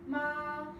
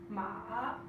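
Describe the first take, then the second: First: The pitch stays level and steady. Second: The pitch dips down then rises. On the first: It means mother. "which is a straight line" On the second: It means horse. "which is a downward, upward tone"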